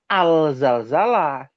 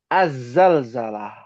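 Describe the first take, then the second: First: The article keeps its l, sounding like al. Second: The article is assimilated, sounding like az. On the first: The speaker calls it wrong. "Bukan al-zalzalah. Ini sering nih kesalahan terjadi" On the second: The speaker calls it right. "yang betul az-zalzalah"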